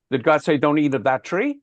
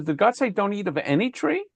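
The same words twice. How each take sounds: First: Said in the usual way. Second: Any pitched up high and leaned on, rising at the end; any pushed high to show the serpent's twist; stress on any. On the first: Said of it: "He doesn't say". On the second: Shown as a demonstration. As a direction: hit the word any hard and sweep upward. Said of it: "He says".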